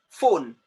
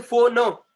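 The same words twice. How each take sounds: First: Said in the usual way. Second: "phone" as two syllables, pho-no, higher and louder; wrongly split word. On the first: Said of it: "Phone is one syllable word". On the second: Shown as a demonstration. Teacher showing what we don't say, "phone" broken into pho-no. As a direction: add a loud "no" ending to "phone". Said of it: "We don't say".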